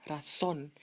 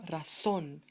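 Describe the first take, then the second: No difference in how they are said.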